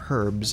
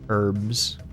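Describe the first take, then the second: First: It is said the European way. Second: It is said the American way.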